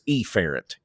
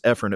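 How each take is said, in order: First: The first vowel is a long E sound. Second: The first vowel is a short E sound. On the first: "So we say it the redneck way" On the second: "That's the appropriate pronunciation"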